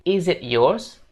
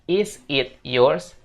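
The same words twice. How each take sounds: First: The words are run together smoothly, linked. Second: Each word is said separately, without linking. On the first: The speaker calls it right. "kita bakal coba sambung" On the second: The speaker calls it wrong. "kita bukan bilang is it yours?"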